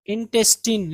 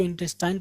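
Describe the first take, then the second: First: Put-on इंटेस्टाइन ending in a long "teen"; correct pronunciation. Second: इंटेस्टाइन ending like "tine"; mistaken pronunciation. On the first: Teacher models the word for students, इंटेस्टाइन said with "-teen". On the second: Teacher quotes how people misread it, इंटेस्टाइन with "-tine". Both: Shown as a demonstration. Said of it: "जो कि गलत है".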